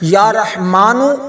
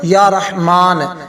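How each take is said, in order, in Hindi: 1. यह शब्द छोटे 'u' स्वर के साथ खत्म होता है। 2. यह शब्द सादे 'n' की आवाज़ पर खत्म होता है। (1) "पहले आप नूनों के ऊपर पेश पढ़ेंगे" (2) "फिर आप उसी तरह पढ़ेंगे या रहमान"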